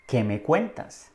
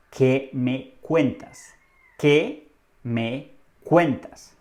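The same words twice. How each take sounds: First: Said in the usual way. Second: "¿Qué me cuentas?" very slowly, word by word; slow model phrase. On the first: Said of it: "La frase que debes utilizar es". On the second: Shown as a demonstration. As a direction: pause after each word of "¿Qué me cuentas?" for learners. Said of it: "Repite después de mí". ("¿Qué me cuentas?" muy despacio, palabra por palabra)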